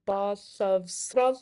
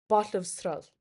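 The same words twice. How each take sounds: First: "Batlavsral" in three separated beats; split into syllables. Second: Said in the usual way. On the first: Shown as a demonstration. Teacher revealing three syllables, word split into beats. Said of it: "three syllables". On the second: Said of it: "How many syllables does that have".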